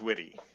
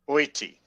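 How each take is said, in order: First: The name starts with a W sound. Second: The name starts with a vowel sound. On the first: This is the family's Americanized version. The speaker calls it wrong. "none of those three are proper Finnish" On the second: This is the proper Finnish version. The speaker calls it right. "the proper proper Finnish, you pronounce every letter"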